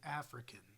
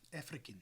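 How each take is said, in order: First: The R is said plainly, not rolled. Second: The R is rolled, South African style. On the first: This is how Americans say it. "we use a rhotic R, but we say African" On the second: This is how South Africans say it. "they roll their R's occasionally... They go South South African"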